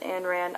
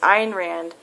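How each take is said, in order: First: The first name is pronounced like 'Ann'. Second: The first name is not pronounced like 'Ann'. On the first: The speaker calls it wrong. "I know I'm saying her name wrong" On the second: The speaker calls it right. "It's Ayn Rand"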